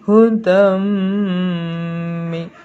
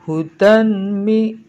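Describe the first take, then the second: First: The n sound merges into a nasal m. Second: The n sound is kept separate before m. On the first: The speaker calls it right. "tapi hudam mi ya" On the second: The speaker calls it wrong. "itu bukan hudan mi ya"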